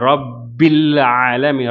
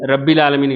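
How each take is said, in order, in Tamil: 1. இரட்டை b இரண்டு எண்ணிக்கை நேரம் இழுக்கணும். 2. இரட்டை b அவசரமா, குறுகியா சொல்லணும். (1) "அந்த இடத்துல ரெண்டு கவுண்ட் வருது" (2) "இல்லை"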